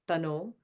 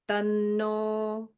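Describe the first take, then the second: First: The n sound is short and not held. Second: The n sound is held long and emphasized. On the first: The speaker calls it wrong. "So it's like not tano" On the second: The speaker calls it right. "So you're holding that n"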